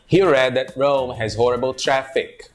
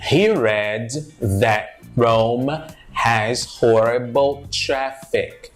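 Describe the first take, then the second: First: The sentence is said at natural connected speed. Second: The sentence is said slowly and carefully.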